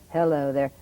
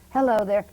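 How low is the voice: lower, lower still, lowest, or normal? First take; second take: lower still; normal. First: The voice is two steps lower in pitch. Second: The voice is at its normal pitch. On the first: "lower it and lower it" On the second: "start up with your normal voice"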